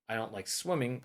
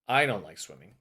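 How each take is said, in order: First: The stress falls on the word swimming. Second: The stress falls on the word I. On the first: Another activity might be liked instead. "but I might like doing something else" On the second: Someone else might like swimming. "but maybe someone else does"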